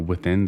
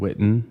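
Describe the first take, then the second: First: The name is said with a 'th' and ending '-ins'. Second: The name is said with a 't' and ending '-en'. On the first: The speaker calls it wrong. "I call them the Withins. I don't even know why I say it like that" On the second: The speaker calls it right. "Definitely Wit- Witten"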